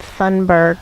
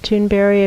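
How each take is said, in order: First: The name is said the way it is spelled. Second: The name is said the owner's own way. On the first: The speaker calls it wrong. "which is how it looks like it might be pronounced" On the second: The speaker calls it right. "she pronounces it Thunberg"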